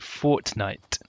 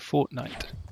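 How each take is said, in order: First: The middle T is said with exaggerated force. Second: The middle T is said plainly and lightly. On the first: The speaker calls it wrong. "overpronounce the T in the middle" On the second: The speaker calls it right. "as opposed to Fortnite"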